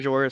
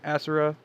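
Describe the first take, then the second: First: The second syllable has a z and an 'oh' vowel. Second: The second syllable has an s and an 'oo' vowel. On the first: This is the speaker's own way of saying it. "I pronounce it Azora" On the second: This is how some other people say it. "some people pronounce it Asura"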